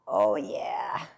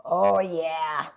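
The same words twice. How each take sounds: First: Low whispered oh yeah. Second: Said in the usual way. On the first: Pretend. Pleased with the stripes.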